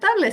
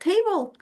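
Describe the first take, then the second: First: It is read with Spanish vowel sounds. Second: It is said with English vowel sounds. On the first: The speaker calls it wrong. "no se pronuncia table" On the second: The speaker calls it right. "te dicen que se pronuncia table"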